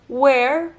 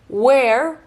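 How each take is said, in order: Both takes have the same delivery.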